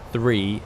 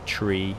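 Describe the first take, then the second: First: It starts with a th sound. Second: It starts with a plain t sound. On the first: The everyday way of saying it. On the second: The way used in radio phonetics.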